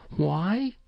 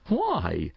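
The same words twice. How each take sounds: First: Put-on high, rising child's "why"; questioning young boy. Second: Lightly amused mother, falling "why"; a hint of a laugh in the question; sudden amusement. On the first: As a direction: ask it as a puzzled boy, pitch climbing. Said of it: "he asked". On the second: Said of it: "said his mother with a sudden laugh". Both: A narrator's reading.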